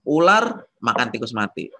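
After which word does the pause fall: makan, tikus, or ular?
ular. The pause falls after the word ular. The snake eats a rat that was already dead. "Jadi si ular makan tikus yang sudah mati"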